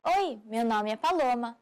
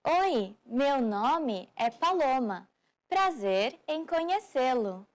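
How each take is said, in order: First: Said in the usual way. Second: "Oi, meu nome é Paloma" said slowly, each word spaced out; slow model. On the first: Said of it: "the most common way". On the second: Shown as a demonstration. Teacher slowing the phrase down for learners, slow and careful. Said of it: "Start by saying".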